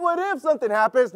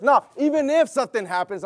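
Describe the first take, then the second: First: Said in the usual way. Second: "even if" pressed firmly over the rest; stress on EVEN IF. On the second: Shown as a demonstration. Preacher correcting the congregation, firm stress on "even if". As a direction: lean hard on "even if". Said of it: "Switch your mentality".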